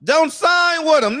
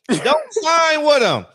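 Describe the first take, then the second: First: Slow, loud, high plea, higher still; imitating Al. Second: Slow, loud, high plea; imitating Al. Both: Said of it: "that's how Al talk".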